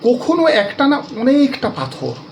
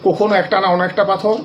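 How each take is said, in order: First: It is recited expressively, with feeling. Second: It is read plainly, without expression. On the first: The meaning of the poem becomes clear. The speaker calls it right. "আমি এই কবিতাটা পড়ছি অন্যভাবে একটু" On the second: The meaning of the poem stays unclear. The speaker calls it wrong. "এমনি যদি কবিতাটা পড়ে যান"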